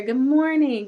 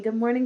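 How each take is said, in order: First: High, loud cheerful hello; cheery greeting. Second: Said in the usual way. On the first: Real, not acted. Host welcoming Doug to the live chat, loud cheery hello. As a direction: greet him with a big welcome.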